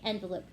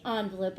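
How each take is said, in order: First: "envelope" starting with an EN sound; second variant. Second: "envelope" starting with an ON sound; first variant. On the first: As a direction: say "envelope" as EN-velope, short E. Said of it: "and some people say envelope". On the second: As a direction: say "envelope" as ON-velope. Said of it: "some people say envelope". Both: Shown as a demonstration.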